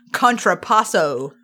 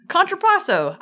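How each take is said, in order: First: Contrapasso slowly and low, every syllable shown; careful demonstration. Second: Contrapasso said briskly, pitched higher; a quick, high-pitched stab at Contrapasso; first-try pronunciation. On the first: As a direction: spell out Contrapasso by mouth, slow and low. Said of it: "stare at my mouth as I say these words". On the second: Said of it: "I did that pretty good". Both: Shown as a demonstration.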